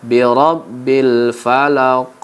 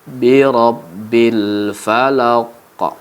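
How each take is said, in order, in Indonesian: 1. Huruf q terakhir memiliki pantulan yang ringan dan kecil. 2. Huruf q terakhir memiliki pantulan yang kuat dan penuh. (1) "seperti itu adalah bacaan qalqalah sughra" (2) "maka qalqalah kubra dibaca"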